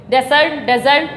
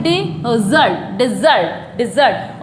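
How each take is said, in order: First: डेजर्ट said as "DEZ-ert"; wrong take, डेजर्ट as "DEH-zurt", twice; mispronunciation demo. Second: डिजर्ट said as "di-ZURT", falling; short i, then a strong zurt in डिजर्ट; teacher slowly models डिजर्ट as "dih-ZURT"; correct pronunciation. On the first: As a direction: open e at the front of डेजर्ट. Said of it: "डेजर्ट नहीं बोलते इसको". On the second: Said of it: "इसको बोलते हैं". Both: Shown as a demonstration.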